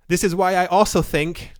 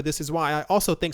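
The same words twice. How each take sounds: First: Said in the usual way. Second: Real hurried, run-on delivery; talking fast. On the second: Real, not acted. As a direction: rush through it without a breath. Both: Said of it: "sorry for talking so fast".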